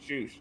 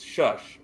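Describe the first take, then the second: First: The word is said with a long oo vowel. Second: The word is said with its usual short vowel. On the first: The speaker calls it wrong. "Why are they saying shoosh?" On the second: The speaker calls it right. "it's shush"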